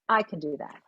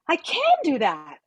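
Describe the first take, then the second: First: The word "I" carries the stress. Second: The word "can" carries the stress. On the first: This particular person is the one who can do it. "The composer put the stress on I" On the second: The ability itself is new and surprising. "someone who broke their leg and now they can dance"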